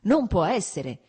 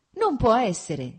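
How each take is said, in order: First: Loud cry of disbelief, stress on non; shouted. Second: Loud, slow shout of disbelief. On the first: Vronsky hears Lora left Fertigov, loud disbelieving cry. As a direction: shout it again, still amazed. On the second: Vronsky cries out at his friend's gossip, shouting. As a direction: cry it out, not believing the news. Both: A narrator's reading. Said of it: "gridò".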